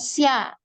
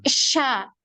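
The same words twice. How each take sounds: First: A separate y sound follows the consonant. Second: A spread sh sound with no y glide. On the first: The speaker calls it wrong. "bukan S Y A ya, bukan sya" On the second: The speaker calls it right. "tapi sya. Sya, gitu ya. Nyebar"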